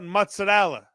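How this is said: It is said with an Italian pronunciation. This is how it is said in Italy. "in Italy, ... They call it mozzarella"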